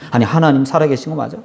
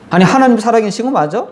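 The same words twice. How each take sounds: First: Said in the usual way. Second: Mocking doubt. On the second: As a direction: challenge God with a sneering rise. Doubting people quoted twice.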